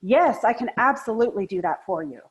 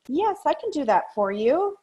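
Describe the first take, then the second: First: Keen, committed yes, leaning in; happy to do it for you; eager yes. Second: High, hesitant yes that does not mean it; unwilling yes. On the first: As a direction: sound truly willing to help. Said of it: "it would sound like". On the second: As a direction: sound like you'd rather not. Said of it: "it might sound something like, okay, I'll give you an example". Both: Shown as a demonstration.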